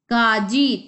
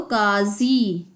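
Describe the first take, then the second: First: Said in the usual way. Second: काजी said slowly with z for ज, kaazi; slow nukta pronunciation. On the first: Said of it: "तो काजी". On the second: Shown as a demonstration. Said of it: "उचित स्थान पर नुक्ता लगाकर". (काजी को धीरे धीरे क़ाज़ी बोलें)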